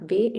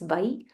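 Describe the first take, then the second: First: The vowel is a plain e sound. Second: The vowel glides as an ai sound. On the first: The speaker calls it wrong. "it's not Ve" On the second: The speaker calls it right. "it's Vai"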